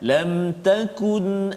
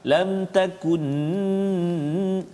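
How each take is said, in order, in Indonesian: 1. Huruf n di akhir dilepas jelas dan singkat. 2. Huruf n di akhir ditahan lama. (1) "Jelaskan lam takun amanat" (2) "Ataupun pegang lam takun, salah juga"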